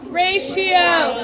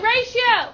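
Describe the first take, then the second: First: Aimed down, falling at the end; call-out dropping away at the end; said to the floor. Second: Higher-pitched call, lifted upward; pitched up for the class to echo; said to the ceiling. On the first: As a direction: send the word down to the floor. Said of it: "say it to the floor". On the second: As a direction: send the word up to the ceiling. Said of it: "say it to the ceiling". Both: Shown as a demonstration.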